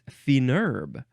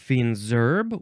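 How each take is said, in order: First: No z sound links the two words. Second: A z sound links the two words. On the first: "they don't pronounce the last letter" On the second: "where you get the S at the end of fin"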